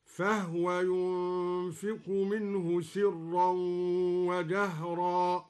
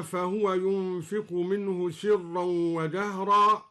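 First: "فهو" recited fahwa, no vowel on the ha; slow chant with "فهو" as two syllables, fah-wa; silent-vowel ha. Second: Said in the usual way. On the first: Shown as a demonstration. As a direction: close the ha into waw in "فهو": fah-wa. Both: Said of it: "سكن الدوري الهاء هكذا".

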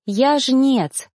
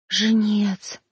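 First: Said in the usual way. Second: A softer, scared echo of the word; frightened hush. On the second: A narrator's reading. Girl echoing the reaper, scared and hushed. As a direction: breathe the word out in fear. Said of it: "испуганный шёпот".

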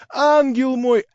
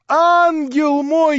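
First: High, loud endearment; excited shout. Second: Higher, louder, slowly stretched endearment; drawn-out rapturous cry. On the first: Young man calling Natasha his angel, excited. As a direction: call her an angel in rapture. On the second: Young man repeating endearment to Natasha, stretched ecstatic. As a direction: linger on ангел мой in ecstasy. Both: A narrator's reading. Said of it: "кричал он".

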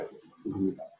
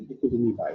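First: Softer, sinking "Je kunt er niet bij"; hushed repeat. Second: Said in the usual way. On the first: Shown as a demonstration. Preacher repeating it softly to the listeners, hushed. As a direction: let "niet bij" fall away softly.

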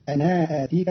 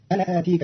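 First: أنا with a long aa, then hamza; lengthened alif. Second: Said in the usual way. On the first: Shown as a demonstration. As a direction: hold the final aa of أنا. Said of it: "بصلة الألف". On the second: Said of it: "قرأ قالون كلمة أنا آتيك".

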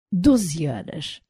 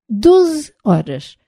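First: Slow, quiet "Doze horas"; disbelieving repeat. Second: "Doze horas" drawn out, high on DOZE; emphatic order. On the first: Corax repeating the twelve-hour order, quietly disbelieving. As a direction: echo "Doze horas" softly and slowly, unimpressed. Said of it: "repetiu Corax, abanando a cabeça". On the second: Engineer instructing Beco on the exact timing, emphatic. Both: A narrator's reading.

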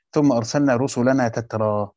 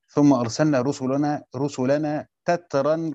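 First: تترى ending in an open long aa, no n; without tanween. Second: تترا ending in a sounded n, "tatran"; with tanween. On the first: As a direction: read تترى with a bare final alif. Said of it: "عدم التنوين". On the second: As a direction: close تترا on a clear -an. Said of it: "وفي قراءة أخرى بالتنوين". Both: Shown as a demonstration.

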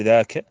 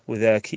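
First: "ذاك" said dhaa-ka, short a at the end; masculine kaf ending. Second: "وذاك" said wu-dhaa-ki, i at the end; feminine kaf ending. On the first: Teacher listing each branch, "ذاك" ending in -ka. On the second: Teacher listing each branch, "وذاك" ending in -ki. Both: Shown as a demonstration. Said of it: "يجي وراها تقريبًا الفروع".

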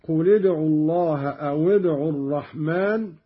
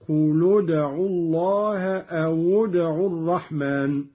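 First: Said in the usual way. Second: "قل ادعوا" as qulud'u, "أو ادعوا" as awud'u; u on the lam of "قل" and waw of "أو"; damma linking. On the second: Shown as a demonstration. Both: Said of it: "قرأ قالون بضم اللام والواو".

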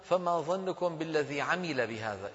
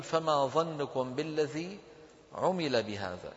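First: عمل voiced "'amila", a vowel first; slow reading with عمل as "'a-mi-la"; mistaken active reading. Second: عمل pronounced "'umila", u vowel first; slow model reading, عمل as "'u-mi-la"; correct pronunciation. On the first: Teacher testing the wrong reading, عمل as "'amila". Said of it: "أما إن قلنا". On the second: Teacher modelling the correct wording, عمل as passive "'umila". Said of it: "فصواب نطقه أن نقول". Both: Shown as a demonstration.

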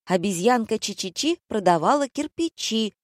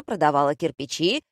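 First: High, timid recited rhyme; thin little voice. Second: Said in the usual way. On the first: A narrator's reading. Browbeaten Valentina reciting for the director, thin-voiced. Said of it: "тоненьким голоском продекламировала". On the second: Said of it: "гаркнул режиссёр".

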